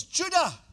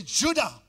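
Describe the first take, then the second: First: High, loud summons of Judah; commanding call. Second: Judah called loud and firm; the preacher shows how Jacob called Judah; with authority. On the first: Acted. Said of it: "Say it like he said". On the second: Shown as a demonstration. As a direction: say Judah like a command. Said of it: "Say it with authority".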